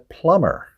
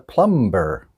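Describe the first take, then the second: First: No b sound is heard in the middle. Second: A b sound is heard in the middle. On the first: The speaker calls it right. "The B is silent" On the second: The speaker calls it wrong. "the wrong word was plumber"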